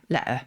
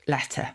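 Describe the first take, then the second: First: "letter" with a glottal stop in place of the T; "letter" with the T dropped for a catch. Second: Said in the usual way. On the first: Shown as a demonstration. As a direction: catch the throat where the T is in "letter". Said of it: "You will also find it in place of a T". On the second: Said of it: "in place of a T before".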